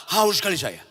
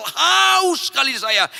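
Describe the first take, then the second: First: Said in the usual way. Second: Shouted high and slow, long drawn haus. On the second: Retold or imitated. Preacher recalling his thirst, shouting it out. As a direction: cry out the thirst at full voice.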